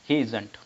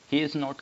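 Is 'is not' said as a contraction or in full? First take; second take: contraction; full. First: Is and not merge into one short word. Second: Is and not are said as two full words.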